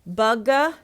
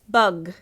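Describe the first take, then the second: First: An extra vowel is added after the final consonant. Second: The word stops sharply on the final consonant. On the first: The speaker calls it wrong. "I will write bug a the way they are producing it" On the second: The speaker calls it right. "chop that extra consonant or the extra vowel sound"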